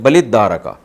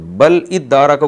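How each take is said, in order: First: Bal runs straight into id as one word. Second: Bal and id are said as separate words.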